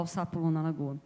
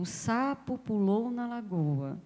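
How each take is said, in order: First: Said in the usual way. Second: "O sapo pulou na lagoa" read slowly, word by word, leaning on "sapo"; slow, deliberate reading of a sample sentence; slow reading aloud. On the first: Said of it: "Eu já sei que eu vou falar". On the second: Shown as a demonstration. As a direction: read it like a line off the page, unhurried. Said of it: "Eu tenho, por exemplo".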